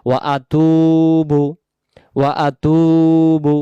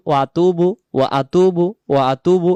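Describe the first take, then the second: First: ওয়া আতুবু very slowly, তু stretched one alif; correct long vowel. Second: ওয়া আতুবু with a clipped, short তু; quick ওয়া আতুবু, the তু not stretched; wrong short vowel. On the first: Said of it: "এখানে আমাদেরকে বলতে হবে". (সহি: ওয়া আতুবু, তু এক আলিফ টেনে) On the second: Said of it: "এমন করে বললে ... ভুল". (ভুল উচ্চারণ: ওয়া আতুবু, তু ছোট করে) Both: Shown as a demonstration.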